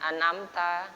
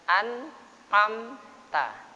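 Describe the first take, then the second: First: The n runs straight into the next vowel. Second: The n is pronounced clearly, apart from the vowel. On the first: The speaker calls it wrong. "Jangan anamta" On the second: The speaker calls it right. "Jelaskan an amta"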